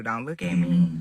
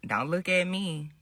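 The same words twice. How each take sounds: First: A low take of the defensive line; demo line, low. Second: A quieter take of the defensive line; demo line. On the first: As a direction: drop the pitch and say it just as she did. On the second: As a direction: say it softly, just as she did. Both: Shown as a demonstration. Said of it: "Just like this, do what you do".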